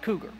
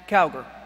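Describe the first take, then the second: First: The name sounds like the word cougar. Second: The name sounds like the word cowgirl. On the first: The speaker calls it wrong. "my name is not pronounced Cougar" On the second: The speaker calls it right. "It's pronounced Cowgirl"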